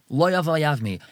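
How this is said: It is said as one unbroken phrase. He does not want to marry her. The speaker calls it right. "He has to say it in one pasuk"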